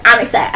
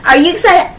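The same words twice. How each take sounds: First: Said in the usual way. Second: Excited question. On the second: Shown as a demonstration.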